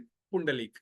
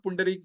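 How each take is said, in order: First: पुंडलीक, third syllable "lee", not "ree"; variant with L. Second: पुंडरीक, third syllable "ree", not "lee"; variant with R. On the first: Teacher asking Maharashtrians which name is correct, पुंडलीक said with "lee". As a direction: say पुंडलीक with an l sound before the final long ee-k. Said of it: "Maharashtrian लोग बताएंगे which is correct". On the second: Teacher giving devotees the other form of the name, पुंडरीक said with "ree". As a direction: say पुंडरीक with an r sound before the final long ee-k. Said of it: "कई लोग पुंडरीक भी बोलते हैं".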